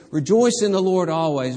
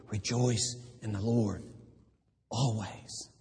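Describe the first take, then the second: First: Louder, ringing call to rejoice; loud proclamation. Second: Softer, intimate earnest command; quiet, eye-to-eye. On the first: Paul voiced to the church as a ringing loud call. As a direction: proclaim it to the rafters. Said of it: "It's as though Paul says". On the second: Paul holding us by the shoulders, speaking softly. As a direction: lean in close and say it softly. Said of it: "He looks us in the eye and says". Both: Retold or imitated.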